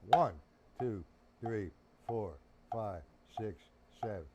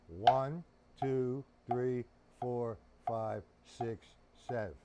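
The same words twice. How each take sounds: Both takes have the same delivery.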